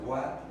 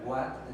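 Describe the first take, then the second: No difference in how they are said.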